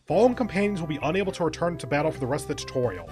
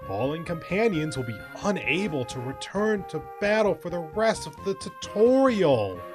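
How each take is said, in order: First: It is read in a plain, normal voice. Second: It is read in an exaggerated, sarcastic voice. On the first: "let me take that out of out of sarcastic voice" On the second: "the more ridiculous, over-the-top voice"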